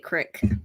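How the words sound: It is said with a country accent, like 'crick'.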